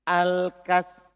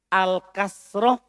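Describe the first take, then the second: First: "Al-kasr" ending on consonants, no final vowel; al-kasr without ta. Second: "Al-kasroh" drawn out, ending on a full -roh. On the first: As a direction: stop "Al-kasr" before any -oh. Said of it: "Tidak pakai". (ucapkan "Al-kasr" tanpa vokal di akhir) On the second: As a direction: slowly finish "Al-kasroh" with its last vowel. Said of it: "pakai ta". (ucapkan "Al-kasroh" pelan, akhiran -roh terdengar jelas) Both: Shown as a demonstration.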